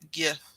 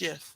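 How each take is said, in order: First: The word begins with a hard G sound. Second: The word begins with a J sound. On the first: The speaker calls it wrong. "it looks like it should be pronounced G- GIF" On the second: The speaker calls it right. "But it's GIF, like the peanut butter"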